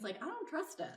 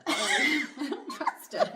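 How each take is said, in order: First: Said in the usual way. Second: Much higher, laughing through the words. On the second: Real, not acted. Therapist repeats her confession, laughing high. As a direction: squeal it out amused at yourself.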